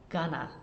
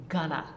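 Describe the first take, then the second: First: The words are reduced and run together quickly. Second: The words are reduced and run together quickly.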